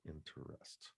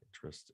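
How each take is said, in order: First: The word is said with three syllables. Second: The word is said with two syllables. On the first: "instead of" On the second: "the practice of dropping syllables from words"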